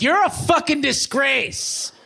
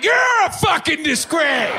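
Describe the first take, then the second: First: High, slow sneering stranger voice; mock insult. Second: Very high, slow, shouted mimicry; shouted echo. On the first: Stranger scolds the stoned fake fireman, high sneer. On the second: Stoned comic yells the insult right back, high shout.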